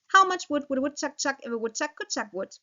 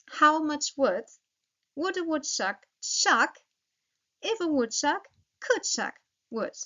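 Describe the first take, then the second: First: The sentence is said fast. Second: The sentence is said slowly.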